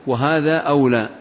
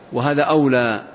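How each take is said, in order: Both takes have the same delivery.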